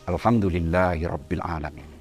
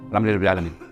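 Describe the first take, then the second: First: It is said sincerely, with heartfelt feeling. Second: It is said casually, without much feeling.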